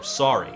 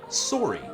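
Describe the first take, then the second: First: It is said in a plain, non-Canadian accent. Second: It is said in an imitated Canadian accent.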